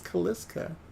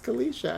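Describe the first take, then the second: First: The name ends with a 'ska' sound. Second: The name ends with a 'sha' sound. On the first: The speaker calls it wrong. "I thought it was Kaliska" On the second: The speaker calls it right. "It was Kalisha"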